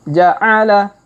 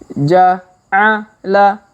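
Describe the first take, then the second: First: The syllables are read quickly and joined. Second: The syllables are read slowly and separately. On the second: "kita baca pelan-pelan"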